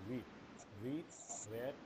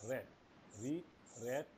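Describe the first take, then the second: The two takes are said the same way.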